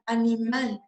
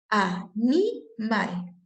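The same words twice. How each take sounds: First: Said in the usual way. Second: "Animal" very slowly, broken into a-ni-mal; syllable by syllable. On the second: Shown as a demonstration. Teacher finding the stressed syllable, syllable by syllable. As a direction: stretch "Animal" out with clear gaps between syllables.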